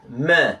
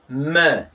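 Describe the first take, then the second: First: The vowel is a front ee sound. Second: The same.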